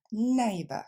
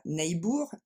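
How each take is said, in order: First: Neighbor ending in a weak "-buh"; reduced ending. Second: Neighbor ending in a full "-bour"; wrong full ending. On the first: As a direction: neighbor with the last vowel swallowed. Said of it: "et on va dire". (neighbor avec une finale réduite « -beu ») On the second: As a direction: neighbor said the French way. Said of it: "on va pas dire". (neighbor avec une finale pleine « -bour ») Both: Shown as a demonstration.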